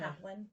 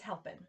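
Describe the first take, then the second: First: The P sound comes before the L sound. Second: The L sound comes before the P sound. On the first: The speaker calls it wrong. "Sometimes people change the L and the P" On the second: The speaker calls it right. "But it's helping"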